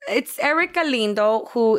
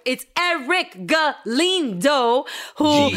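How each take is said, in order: First: It is said in a calm, ordinary voice. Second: It is said in a loud, excited voice.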